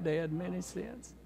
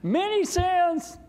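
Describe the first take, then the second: First: Slower, softer repeat of many sins; soft, slow agreement; gentle echo. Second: Put-on high, slow shout of the old man's words; imitating dad yelling out happily; yelled out. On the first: Retold or imitated. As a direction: say it back tenderly to dad. Echoing dad's words back gently. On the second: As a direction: call it out loud and high like dad did. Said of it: "my dad yelled out".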